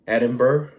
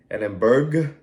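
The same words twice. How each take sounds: First: The name is said the local UK way. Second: The name is said in the speaker's usual way. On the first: The speaker calls it right. "It's pronounced, I think" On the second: The speaker calls it wrong. "is not the way it's pronounced"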